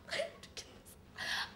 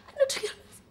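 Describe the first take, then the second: First: Hammed-up breathless whisper; mock whisper. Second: Said in the usual way. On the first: She whispers her mock despair to herself. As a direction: whisper the line like a dramatic secret.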